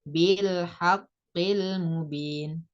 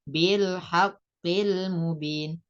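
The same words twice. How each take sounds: Both takes have the same delivery.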